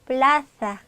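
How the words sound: It is said with the Spain Spanish accent.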